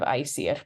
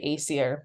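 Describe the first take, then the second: First: It is pronounced with the native Old Norse sound. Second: It is pronounced with an anglicized English sound. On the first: "the proper pronunciation of Aesir" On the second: "that's just the anglicized version"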